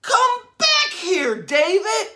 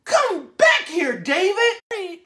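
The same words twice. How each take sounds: First: High, slow shouted call after her son; mom screaming. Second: Mom yelling. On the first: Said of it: "his mom was screaming". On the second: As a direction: shout it like a mother calling her runaway kid. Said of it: "His mom said". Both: Acted.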